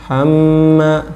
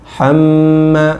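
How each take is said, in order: No difference in how they are said.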